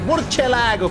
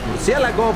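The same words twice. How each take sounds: First: It is pronounced with Italian-style sounds. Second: It is pronounced with Spanish-style sounds. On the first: The speaker calls it wrong. "That's why I keep on saying things like murcielago" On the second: The speaker calls it right. "it's a word in Spanish. I should say like murcielago"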